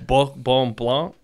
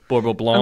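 First: It is said in French, with a guttural R. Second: It is said in English, with a plain R.

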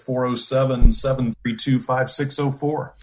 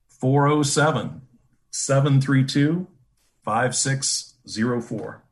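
First: The number is said at a normal quick pace. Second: The number is said more slowly.

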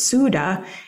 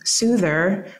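First: It is said in a Jamaican accent. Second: It is said in a plain American accent.

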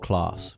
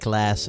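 First: It is said with a British accent. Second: It is said with an American accent. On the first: "een Brit zegt class" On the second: "een Amerikaans zegt class"

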